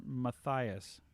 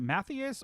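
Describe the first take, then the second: First: Matthias said muh-THIGH-us; alternative pronunciation. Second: Matthias said ma-THEE-us, short A first; trying a pronunciation. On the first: Streamer offering a viewer another option, Matthias as muh-THIGH-us. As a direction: say Matthias with a long I in the middle. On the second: Streamer checking a viewer's name, Matthias with EE in the middle. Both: Shown as a demonstration. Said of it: "is it Matthias or Matthias?".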